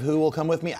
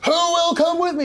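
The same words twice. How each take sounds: First: It is delivered as a weak, whining plea. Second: It is delivered as a rousing battle cry. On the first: "a whining last gasp kind of" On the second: "It wasn't a Braveheart. Like"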